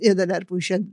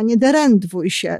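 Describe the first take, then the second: First: The verb's sounds are in order as denerwuj. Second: The verb's sounds are jumbled as derendwuj. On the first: The standard form of the phrase. The speaker calls it right. "zamiast nie denerwuj się" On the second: A small child's mispronunciation. The speaker calls it wrong. "Magda mówiła nie derendwuj się"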